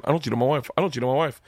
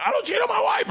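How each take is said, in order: First: Said in the usual way. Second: High, yelled self-reminder; mock yelling. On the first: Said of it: "I start that conversation". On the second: Husband resisting temptation, mock yelling to himself. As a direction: shout it at yourself. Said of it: "I end up yelling".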